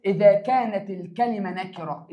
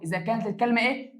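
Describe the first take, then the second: First: Said in the usual way. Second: إيه asked with a rising, open tune for the class to fill in; teacher prompting question. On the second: Shown as a demonstration. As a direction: leave إيه hanging so the pupils answer.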